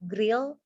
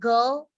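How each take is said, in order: First: It is said with the r before the vowel. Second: It is said with the r after the vowel. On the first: The speaker calls it wrong. "you said grill" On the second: The speaker calls it right. "the word of uh, girl"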